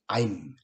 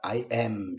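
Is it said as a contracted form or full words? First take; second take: contracted; full. First: One short contracted syllable, am reduced. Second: Two full words, with am stressed. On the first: "줄여서 얘기하면 분명히 I'm" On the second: "am은 am으로서 비동사로서 강조를 해주니까 I am 이렇게 얘기해야 되지만"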